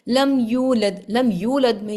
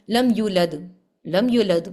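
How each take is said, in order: First: Slow لم یولد holding یو for two counts; correct madd. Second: لم یولد clipped, یو cut to one count; shortened madd. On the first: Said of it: "یہاں پر ٹو count ہے". (یولد میں دو حرکت کا مد) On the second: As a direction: rush یولد, cutting the vowel short. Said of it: "اگر اس کو ایسے پڑھ دوں". (غلط، مد کو ایک حرکت کر دینا) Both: Shown as a demonstration.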